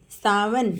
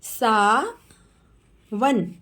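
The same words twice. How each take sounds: First: Said in the usual way. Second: Sawan stretched very slowly; slow teacher model of Sawan. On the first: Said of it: "quick plain repeat". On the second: Shown as a demonstration. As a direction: draw Sawan out sound by sound. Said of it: "teacher models name slowly".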